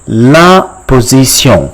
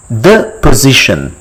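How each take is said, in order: First: "La position" slowly as la po-zee-syon; French pronunciation. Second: Said in the usual way. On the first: Shown as a demonstration. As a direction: teach "La position" slowly with a nasal French ending. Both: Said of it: "how do you call it in French".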